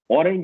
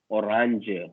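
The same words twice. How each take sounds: First: The word has an English pronunciation. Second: The word has a German pronunciation. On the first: "You have to pronounce it differently" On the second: "You have to pronounce it differently"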